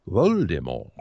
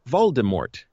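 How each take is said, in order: First: The final T is silent, French-style. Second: The final T is clearly pronounced. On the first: This is the originally intended form. "the silent T, the French pronunciation" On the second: This is the form that became standard. "went with Voldemort"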